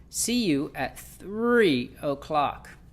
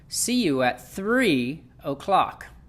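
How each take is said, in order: First: The word three is stretched and stressed. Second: The same.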